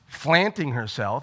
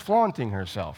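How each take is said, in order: First: The first vowel is flat, like in cat. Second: The first vowel is broad, like in father. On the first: The speaker calls it wrong. "You wouldn't say" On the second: The speaker calls it right. "You'd say"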